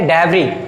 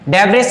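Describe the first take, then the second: First: The final s sound is left out. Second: The final s sound is pronounced. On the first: The speaker calls it right. "इसमें जो एस लगा हुआ है ना, ये पे ये क्या है, साइलेंट लेटर है" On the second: The speaker calls it wrong. "डेब्रिस नहीं है"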